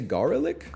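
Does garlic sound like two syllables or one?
two syllables. It is said with both syllables, American style.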